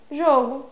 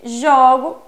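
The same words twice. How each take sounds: First: Jogo with a closed ô, jôgo; noun jogo. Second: Jogo with an open ó, jógo; verb jogo. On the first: Teacher contrasting it with the verb, jogo with closed ô. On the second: Teacher giving students the verb form, jogo with open ó. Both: Shown as a demonstration.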